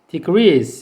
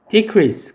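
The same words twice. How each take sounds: First: The stress is on the second syllable. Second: The stress is on the first syllable. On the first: It is the verb meaning to reduce. "동사인 경우에는 decrease예요" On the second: It is the noun meaning a reduction. "강세를 앞에 두고 읽으면 decrease고요"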